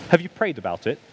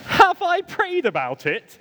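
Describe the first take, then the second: First: Calm, measured friend's question; imitating a friend's unruffled enquiry. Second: Slow, high, incredulous repeat; hammed-up outraged question, pitched way up; indignant echo. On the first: Friend gently asking the worked-up speaker, very calm. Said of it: "my friend very calmly went". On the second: Throwing the friend's prayer question back, indignant.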